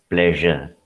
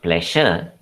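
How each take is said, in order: First: The middle consonant is a voiced zh. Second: The middle consonant is a voiceless sh. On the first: The speaker calls it right. "it is pleasure" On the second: The speaker calls it wrong. "It is not pleasure"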